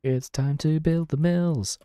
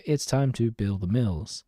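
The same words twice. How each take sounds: First: Higher, slow, drawn-out hype line; hyped announcement. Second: Said in the usual way. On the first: Pretend. Streamer hyping up building mills for viewers, higher slow announcement. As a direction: announce it like a big event, stretching it out.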